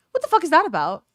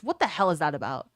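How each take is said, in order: First: Higher, louder on fuck; What the fuck is that about with fuck stressed hard; emphatic outrage. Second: Said in the usual way. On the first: Real, not acted. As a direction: punch the word fuck, indignant. Outraged repeat of the question.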